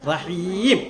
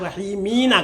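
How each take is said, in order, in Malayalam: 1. വാക്ക് സ്വരമില്ലാതെ m-ൽ അവസാനിക്കുന്നു. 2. വാക്ക് m-ന് ശേഷം ഒരു സ്വരാക്ഷരത്തിൽ അവസാനിക്കുന്നു. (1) "നിർത്തേണ്ടത് എങ്ങനെയാ?" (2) "ബിസ്മില്ലാഹി റഹ്മാനി റഹീമീനാ കിടക്കുന്നത്"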